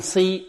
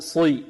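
First: First صي too light, close to "si"; صي without its emphatic quality; thinned saad. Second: Corrected صي, heavy, toward "swi"; heavy, thickened صي; emphatic saad. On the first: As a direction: demonstrate the faulty light صي. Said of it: "لا نقول صي". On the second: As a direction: model صي with full itbaq. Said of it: "وإنما نقول صي". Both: Shown as a demonstration.

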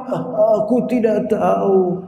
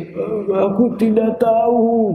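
First: Slow, lightly voiced sick person; sounding sick. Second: Mild mock crying, slow and drawn out. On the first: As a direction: say it weakly and slowly, as if ill. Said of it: "Itu menunjukkan dia sedang sakit". (suara orang sakit yang lemah dan pelan) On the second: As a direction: say it slowly as if about to cry. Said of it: "tapi kayak nangis gitu". (suara pura-pura menangis pelan) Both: Shown as a demonstration.

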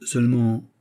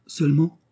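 First: Said in the usual way. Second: Seulement repeated higher, with a rising anxious lift; worried echo. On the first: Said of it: "répéta Percerin". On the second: A narrator's reading. Anxious tailor echoes Aramis, worried seulement. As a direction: echo seulement as a nervous question. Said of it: "répéta Percerin avec inquiétude".

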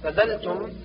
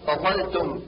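First: فذلتم with thin dh for ظ; zaa as dhal. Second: فظلتم with heavy emphatic dh; true zaa. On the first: Teacher shows the error, فذلتم with light dh. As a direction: lighten the ظ of فظلتم to ذ. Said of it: "جعل الضاء ذالا". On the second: Teacher corrects, فظلتم with full emphatic dh. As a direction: darken the ظ in فظلتم. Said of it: "والصواب". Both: Shown as a demonstration.

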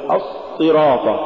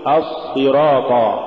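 First: الصراط with the heavy s cut short; stopped s and a gap in الصراط; choked-off sad. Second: الصراط with a continuous heavy s; as-sirat, flowing doubled s in الصراط; soft flowing sad. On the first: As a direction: block the doubled sad in الصراط. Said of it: "ولا تقل". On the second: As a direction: let the sad run in الصراط. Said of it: "قل". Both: Shown as a demonstration.

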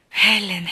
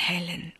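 First: A louder call of her name. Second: A soft whispered echo of the name. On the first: Calling Helen's name. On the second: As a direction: breathe the name under your breath. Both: Acted.

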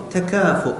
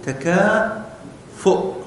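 First: Said in the usual way. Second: تكافؤ drawn out very slowly, syllable by syllable; slow spelled-out word. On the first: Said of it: "شوف كلمة تكافؤ". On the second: Shown as a demonstration. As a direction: stretch تكافؤ slowly so pupils hear the hamza. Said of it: "هذا الحرف الذي قبل الهمزة". (نطق تكافؤ ببطء شديد مقطعا مقطعا)

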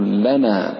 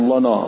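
First: لنا with thin "la" and open long naa; light laam. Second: لنا darkened to "lo-naw"; wrongly heavy laam. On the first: Shown as a demonstration. Teacher corrects it, لنا with light laam. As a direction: keep لنا clear and front, drawn out. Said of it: "رقق اللام". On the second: Retold or imitated. Teacher mimics some reciters' mistake, لنا with heavy laam. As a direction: round both vowels of لنا, thick laam. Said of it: "كأنه سمع بعض الناس يقول".

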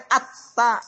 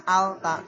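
First: AT-TA with the lam silent and the t doubled; assimilated reading. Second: AL-TA with the l sounded before the t; unassimilated reading. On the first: Teacher showing how it is read, assimilated "at-ta". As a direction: run straight into a held double t in "at-ta". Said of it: "Jadi dibacanya at-ta, jangan al-ta". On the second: Teacher showing what to avoid, l sounded in "al-ta". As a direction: let the l be heard in "al-ta". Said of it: "jangan al-ta". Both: Shown as a demonstration.

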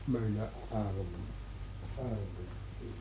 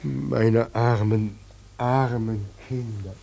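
First: Far-off, much softer repeat; distant echo fading to nothing. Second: Said in the usual way. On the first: Acted. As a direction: let it die away in the distance. God's lament fades as echo.

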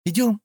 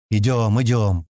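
First: ИДЁМ as a high rising question; eager-to-check "Идём", high and lifted at the end; asking. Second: Mildly irritated "Идём, идём", falling at the end; grudging repeated "идём", pitch kept down; grumbling. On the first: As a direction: ask "Идём" with the pitch jumping up. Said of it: "спросила Кэлла". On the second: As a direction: grumble "Идём, идём" with growing impatience. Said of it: "проворчал Стэн, начиная почему-то раздражаться". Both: A narrator's reading.

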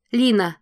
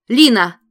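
First: Urgent call. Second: Much higher, very loud cry; shout. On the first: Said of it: "повторяет Корал". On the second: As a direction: call her name in alarm. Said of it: "кричит Корал". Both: A narrator's reading.

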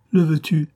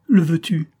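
First: 1 repeated tearful plea. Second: High, pleading question through tears; dying daughter begging her father's pardon; tearful plea. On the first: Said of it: "répéta-t-elle". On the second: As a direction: beg forgiveness, voice full of tears. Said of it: "Sa voix et ses yeux étaient pleins de larmes". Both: A narrator's reading.

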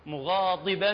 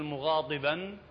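First: مغاضبا بضاد قريبة من الدال; mixed ض. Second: مغاضبا with ض pronounced like ط, a hard muɣatiban; مغاضبا بضاد تُنطق طاءً. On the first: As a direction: say مغاضبا as muɣadiba, ض close to د. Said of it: "كأنما دال وطاء". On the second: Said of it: "أكو بعض يلفظه قريب للطاء ويقول". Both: Shown as a demonstration.

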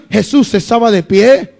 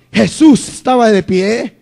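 Both takes have the same delivery.

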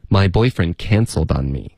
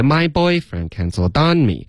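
First: Said in the usual way. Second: Put-on "My boyfriend cancelled on me" with practised syllables pitched high and over-stressed; wrongly added stress. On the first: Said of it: "就是这么说的". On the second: Shown as a demonstration. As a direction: overemphasize "My boyfriend cancelled on me", higher on the careful syllables. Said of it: "注意的时候别加重音".

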